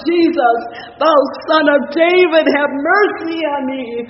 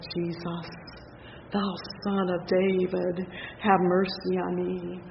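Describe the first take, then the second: First: It is said more loudly. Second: It is said more softly.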